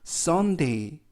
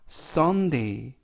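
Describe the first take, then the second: First: The opening S is said more strongly. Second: The opening S is said softly.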